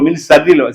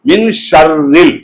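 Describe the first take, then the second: First: The word begins with a plain 's' sound. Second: The word begins with a 'sh' sound. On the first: The speaker calls it wrong. "நிறைய பேர் மின் ஷர்ரில் ஷர்ரில் அல்ல" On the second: The speaker calls it right. "இது ஷீன்"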